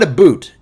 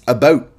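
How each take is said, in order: First: The stressed vowel sounds like 'oo' in boot. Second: The stressed vowel sounds like 'oh' in boat. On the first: The speaker calls it wrong. "Everyone else does, says a boot" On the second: The speaker calls it right. "It's a boat"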